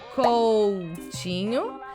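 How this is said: The t sounds like ch. This is how Brazilians say it. "we say Coutinho, ... like chi instead of T"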